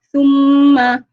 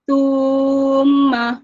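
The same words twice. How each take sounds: First: The vowel is kept short. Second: The vowel is drawn out long. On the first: "Contohnya summa" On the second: "dia jadi summa"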